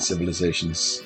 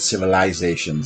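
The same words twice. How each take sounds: First: The word is said in an ordinary, plain way. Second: The word is said in a fancy, affected way. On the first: The speaker calls it wrong. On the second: The speaker calls it right. "the pretentious way of saying it. You should have said"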